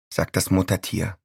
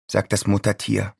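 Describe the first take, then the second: No difference in how they are said.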